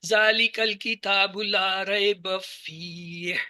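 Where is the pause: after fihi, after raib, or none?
after fihi. There is a pause right after fihi. The speaker calls it right. "यहां पे रुक जाएंगे, हुदल लिल मुत्तकीन को अलग पढ़ेंगे"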